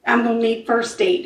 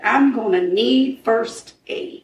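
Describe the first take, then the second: First: Said in the usual way. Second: Retold radio call, slow and deliberate; slowed-down repeat. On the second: Storyteller repeats officer's walkie-talkie call for ambulance, slowly and deliberately. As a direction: draw each word out evenly.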